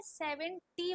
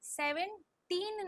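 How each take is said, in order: First: सेवेंटी in parts, ending on a clear "tee"; SEVENTY, open ending. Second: Put-on सेवनटीन slowly, with a long "teen"; SEVENTEEN, final n. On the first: Teacher contrasts it with seventeen, careful enunciation. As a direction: say सेवेंटी with no final n. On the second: Teacher shows the word she did not say, slow enunciation. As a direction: stretch the end of सेवनटीन into a clear n. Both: Shown as a demonstration. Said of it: "सेवनटीन नहीं बोला".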